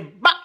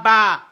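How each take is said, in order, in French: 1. La voyelle est très courte. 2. La voyelle est bien allongée. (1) "c'est ba. ... ici c'est très court" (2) "C'est pas ba"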